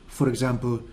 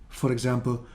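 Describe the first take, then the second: The two takes are said the same way.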